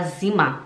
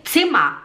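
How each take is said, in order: First: Buzzing Z at the start of "Zimmer"; learner's voiced Z in "Zimmer"; Portuguese-style Z. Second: "Zimmer" opening with TS; sharp "ts" start on "Zimmer"; correct German Z. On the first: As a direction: say "Zimmer" as "zima". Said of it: "a gente fala Zimmer". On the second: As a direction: say "Zimmer" as "tsimma". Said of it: "em vez de falar". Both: Shown as a demonstration.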